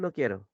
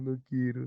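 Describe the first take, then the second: First: It is said in a calm, neutral tone. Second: It is said sadly, as if crying. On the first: The speaker is in a normal mood. "Si estás normal, dices" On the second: The speaker is sad. "Si estás triste, mientras lloras, dices"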